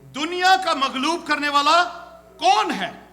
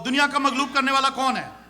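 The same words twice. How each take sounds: First: It is read with a questioning tune. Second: It is read flatly, like a plain statement. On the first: It asks who overcomes the world. The speaker calls it right. "ऐसे पढ़ना है इसको" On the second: It reads as a plain declaration. The speaker calls it wrong. "हम सीधा सीधा पढ़ते हैं ना"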